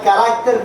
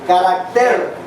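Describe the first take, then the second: First: The stress is on the middle syllable. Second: The stress is on the last syllable. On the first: The speaker calls it wrong. "No es carácter" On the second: The speaker calls it right. "la acentuación es en la última, en la E"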